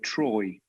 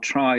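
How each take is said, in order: First: The vowel sounds like 'oy', as in 'Troy'. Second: The vowel is a plain standard 'eye' sound.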